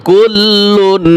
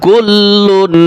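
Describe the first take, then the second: No difference in how they are said.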